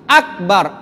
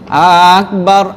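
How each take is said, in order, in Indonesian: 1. Vokal pertama diucapkan pendek. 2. Vokal pertama diucapkan panjang. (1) "A-nya tidak panjang" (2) "A-nya dipanjang"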